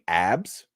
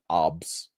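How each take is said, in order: First: The vowel sounds like the 'a' in cat. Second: The vowel sounds like the 'o' in hot. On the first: This is the usual way to say it. "instead of saying abs" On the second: This is how the imitated person said it. "she said obs"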